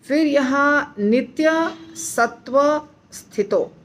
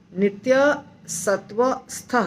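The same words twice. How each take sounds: First: Slow wrong take ending in स्थितो with full 'sthito'; wrong pronunciation. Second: Slow correct take ending in a short clipped स्थ; correct pronunciation. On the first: (गलत उच्चारण: धीमे 'स्थितो' बोलें) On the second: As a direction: cut the word off at स्थ with no 'ito'. (सही उच्चारण: धीमे 'स्थ' पर रुकें) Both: Shown as a demonstration. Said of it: "स्थितो नहीं".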